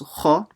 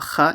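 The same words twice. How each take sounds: First: The sound is heavy, with a full mouth. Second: The sound is light, with a thin mouth. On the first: The speaker calls it right. "make sure you read it full mouth" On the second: The speaker calls it wrong. "So it's not kha"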